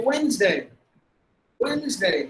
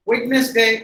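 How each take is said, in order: First: Wednesday as WENZ-day; two-syllable Wednesday; silent D. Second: Wednesday as WED-nes-day; louder Wednesday in three syllables; spelling pronunciation. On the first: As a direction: drop the d, buzz a z in Wednesday. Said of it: "with the D silent". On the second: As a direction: sound out the middle syllable of Wednesday. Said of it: "அப்படின்னு நம்ம இந்த வார்த்தையை". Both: Shown as a demonstration.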